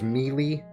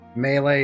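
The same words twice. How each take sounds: First: The word is said just as it is spelled. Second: The word is said the usual, standard way. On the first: The speaker calls it wrong. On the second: The speaker calls it right.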